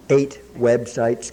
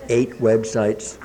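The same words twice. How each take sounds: First: "eight websites" drawn out slowly, weight on "eight"; proud emphasis. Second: "Eight websites" again slow, leaning hard on "Eight"; proud emphasis. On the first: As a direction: savour "eight" slowly with pride. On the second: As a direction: repeat it slowly, marvelling at "Eight". Repeats it for emphasis. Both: Real, not acted.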